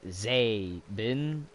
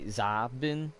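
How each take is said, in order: First: The first vowel is a long 'ay' sound. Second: The first vowel is not an 'ay' sound. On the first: The speaker calls it right. "I say it like A" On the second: The speaker calls it wrong. "a lot of people will say Zabin"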